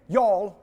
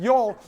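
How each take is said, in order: First: Said in the usual way. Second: Slow, drawn-out Alabama y'all; Alabama accent. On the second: Shown as a demonstration. Presenter teasing the audience in a mock Alabama accent. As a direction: stretch the vowel in y'all like a lazy Alabama drawl. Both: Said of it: "Alabama accent".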